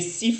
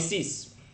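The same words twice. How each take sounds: First: The final s sound is silent. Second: The final s sound is clearly pronounced. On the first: "if it's followed by a consonant, you do not pronounce the s" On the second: "If it's at the end, then you pronounce it"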